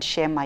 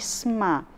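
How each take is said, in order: First: A full vowel follows the first consonant. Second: The first two consonants run together without a vowel. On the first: The speaker calls it wrong. "penyebutannya sebenarnya bukan shema ya" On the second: The speaker calls it right. "tetapi sma"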